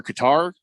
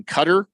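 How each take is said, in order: First: Qatar with the stress at the end, kuh-TAR. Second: Qatar with the stress up front, as CUT-er; first-syllable stress on Qatar, "cutter". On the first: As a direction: punch the second syllable of Qatar, rhyming with car. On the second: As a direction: say Qatar to rhyme with butter. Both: Shown as a demonstration. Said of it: "how am I supposed to say this".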